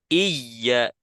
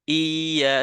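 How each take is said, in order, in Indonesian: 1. Y ganda disentak terlalu keras. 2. Vokal pembuka ditarik panjang, tanpa y ganda. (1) "terlalu menekan menghentak" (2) "seperti memanjangkan hamzah"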